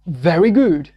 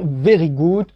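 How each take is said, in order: First: It is said with a natural English accent. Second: It is said with a French accent. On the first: The speaker calls it right. "si vous voulez, n'est-ce pas, être naturel" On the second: The speaker calls it wrong. "on saura que vous êtes d'un background francophone"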